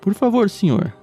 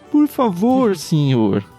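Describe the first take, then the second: First: It is read in a flat, neutral tone. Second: It is read in an imploring, pleading tone. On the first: The speaker calls it wrong. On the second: The speaker calls it right.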